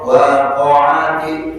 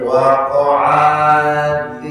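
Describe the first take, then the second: First: The unmarked vowels are kept short. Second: The unmarked vowels are drawn out long. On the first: The speaker calls it right. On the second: The speaker calls it wrong.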